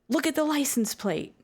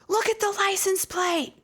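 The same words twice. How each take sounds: First: It is said as a firm command. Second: It is screamed at full volume.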